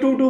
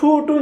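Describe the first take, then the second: First: The t sound is soft, without a burst. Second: The t sound has a strong burst of air. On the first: The speaker calls it right. "আমি টু টু বলি" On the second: The speaker calls it wrong. "টু বলতে গেলে অনেক সময় থুতু বের হয় মুখ দিয়ে"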